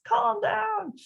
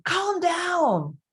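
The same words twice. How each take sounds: First: Hammed-up frazzled parent yelling; mock yelled calm down. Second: High, strained, louder parental snap; imitating a frazzled parent yelling at a child; mock yelled calm down. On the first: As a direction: shriek it like an exasperated parent. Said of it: "You could hear it in my voice". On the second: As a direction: bark it like a stressed parent losing patience. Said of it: "if you're saying".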